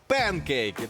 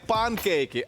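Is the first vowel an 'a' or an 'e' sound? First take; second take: e; a. First: The first vowel is an 'e' sound. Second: The first vowel is an open 'a' sound. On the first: The speaker calls it right. "а пенкейки, тому що англійською сковорідка буде пен" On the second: The speaker calls it wrong. "не панкейки"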